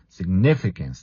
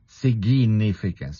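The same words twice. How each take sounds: First: The G is said as a hard sound. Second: The G is said as a soft sound. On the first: The speaker calls it right. "the G is a hard G. You just say sig" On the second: The speaker calls it wrong. "remember the pronunciation is not significance"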